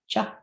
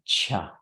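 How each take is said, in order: First: The first consonant has no breathy puff. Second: The first consonant has a breathy puff. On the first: "the letter C all by itself sounds like cha" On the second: "and with aspiration"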